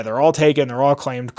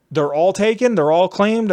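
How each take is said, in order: First: "they're all taken. They're all claimed." as falling statements; matter-of-fact confirmation. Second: "They're all taken? They're all claimed?" higher, lifting into questions; incredulous questions. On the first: Clerks confirm with same words. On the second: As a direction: ask "They're all taken? They're all claimed?" in raised-pitch disbelief. Asks clerks, who echo it back. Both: Retold or imitated.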